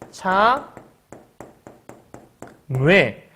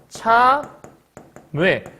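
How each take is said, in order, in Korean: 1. 두 번째 모음은 한 소리에서 다른 소리로 넘어가는 이중모음이에요. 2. 두 번째 모음은 변하지 않는 하나의 단모음이에요. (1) "이중모음으로 발음할 수 있기 때문에 이렇게도 발음할 수 있어" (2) "요를 참 아이고 이어 발음해야 되니까 참외 이렇게 발음을 해야 되거든"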